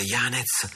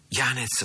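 First: A first trembling cry of Yanez; trembling stammer. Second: Yanez repeated even higher, shaken; a second trembling cry of Yanez; trembling stammer. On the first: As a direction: stammer the name in shock. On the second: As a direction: stammer the name again as if pleading. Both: A narrator's reading. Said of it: "balbettò Sandokan con voce tremante".

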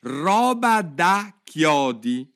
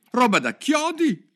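First: Loud, high, word-by-word drawl; slow dictation. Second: Loud, high outburst of indignation; indignant exclamation. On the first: Jurors copying the words onto slates, slow deliberate reading. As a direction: stretch each word as if writing it down. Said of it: "tutti i giurati stavano trascrivendo". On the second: Alice reacts to the jurors out loud, indignant cry. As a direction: burst out indignantly, pitched way up. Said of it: "si indignò Alice a voce alta". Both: A narrator's reading.

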